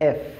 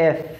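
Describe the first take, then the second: No difference in how they are said.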